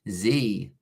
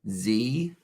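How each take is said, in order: First: The letter is said the American way, zee. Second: The same.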